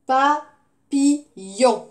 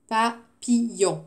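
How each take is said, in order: First: Papillon slow and loud, PA... PI... LLON; syllable by syllable. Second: Papillon slowly, evenly, PA, PI, LLON; syllable by syllable. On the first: Teacher asking which syllable has "on", Papillon slowly split syllable by syllable. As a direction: say Papillon as three strong, spaced beats. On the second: Teacher repeating for pupils to listen, Papillon split syllable by syllable. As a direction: repeat Papillon in three level, separate beats. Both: Shown as a demonstration. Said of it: "dernière syllabe".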